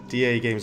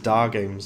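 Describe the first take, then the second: First: DA is said as two separate letters. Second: DA is said as a single syllable. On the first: The speaker calls it right. "you have to say is D A" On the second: The speaker calls it wrong. "I thought it was Da Games"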